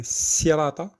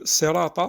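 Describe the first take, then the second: First: Sirata with a thin French-style s; light sin. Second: Sirata with a heavy, dark Arabic s; emphatic sad. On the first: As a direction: open sirata on a light seen. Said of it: "c'est pas un sirata, c'est pas un sin". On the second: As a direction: open sirata on a thick sad. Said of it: "mais un sad". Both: Shown as a demonstration.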